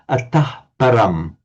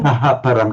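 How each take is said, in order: First: The h runs straight into param, no vowel. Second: An echo vowel follows the h before param. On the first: The speaker calls it right. "just atahparam" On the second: The speaker calls it wrong. "So we don't say"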